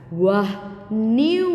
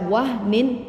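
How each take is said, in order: First: The n sound merges into the following w. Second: The n sound is pronounced clearly and separately. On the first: The speaker calls it right. "dimasukkan ke dalam huruf waw" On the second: The speaker calls it wrong. "Kalau dibaca wah nin itu salah"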